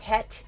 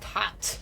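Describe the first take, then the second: First: The vowel sounds like the one in 'bed'. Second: The vowel sounds like the one in 'cat'. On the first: This is how the word was said in the past. "it used to be much more, you know, het" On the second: This is how the word is said now. "now it's just hat"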